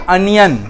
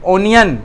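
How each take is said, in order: First: अनियन starting with a short a, uh-ni-yan; onion said as anion. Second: ओनियन starting with a long o sound, o-ni-yan; onion said as onion. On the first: Teacher gives pupils the other pronunciation, अनियन. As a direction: open अनियन on a short flat a. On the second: Teacher gives pupils one pronunciation, ओनियन. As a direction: open ओनियन on a rounded o. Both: Shown as a demonstration. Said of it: "दोनों तलफ़ुज़ सही है".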